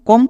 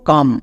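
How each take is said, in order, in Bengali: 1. স্বরধ্বনিটি একটি গোলাকার 'o' ধ্বনি। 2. স্বরধ্বনিটি একটি খোলা 'uh' ধ্বনি। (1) "কম না" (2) "আমরা উচ্চারণ করব কাম"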